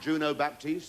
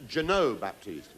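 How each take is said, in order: First: The first name sounds like 'Juno'. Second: The first name sounds like 'Jeannot'. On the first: The speaker calls it wrong. "Did I say that right?" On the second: The speaker calls it right. "Thank you very much for telling me"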